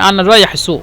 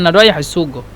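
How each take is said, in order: First: The last word ends in a glottal catch. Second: The last word ends in a throaty gh sound. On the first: "মিশরিরা হামজা বলে ... আনা রায়াহ সু এভাবে বলে" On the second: "কম মানুষে বলে ... ওই কফকে গয়ন হিসেবে উচ্চারণ করলে সমস্যা নেই"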